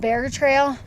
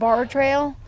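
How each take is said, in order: First: The first word rhymes with care. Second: The first word rhymes with car. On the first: "It might be pronounced Bear Trail" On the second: "I've been calling it Bar Trail"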